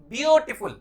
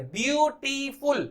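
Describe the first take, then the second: First: Said in the usual way. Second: beautiful slowly split as byoo, tee, ful; syllable by syllable. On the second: Shown as a demonstration. Teacher breaking the word into three syllables, slowly. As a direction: stretch beautiful into three separate higher-pitched beats. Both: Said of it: "तीन syllable का word".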